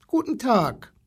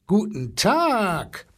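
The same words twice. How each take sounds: First: Put-on short, high greeting from a small boy; high-pitched child greeting, lightly voiced; little boy's greeting. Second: Long drawn-out, raised elephant greeting; stretched-out, blustery animal hello; blustering elephant. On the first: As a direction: say hello in a small boy's raised voice. Timid boy greets the zoo animals. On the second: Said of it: "polterte der Elefant". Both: A narrator's reading.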